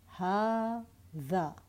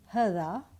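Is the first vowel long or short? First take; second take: long; short. First: The first vowel is long. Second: The first vowel is short. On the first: The speaker calls it right. "I'm saying ha-dha" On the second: The speaker calls it wrong. "I'm not saying ha-dha"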